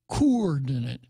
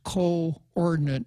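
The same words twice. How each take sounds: First: The two O sounds merge into one vowel. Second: The two O sounds are said separately. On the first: "not coordinate" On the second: "to show you that it's coordinate"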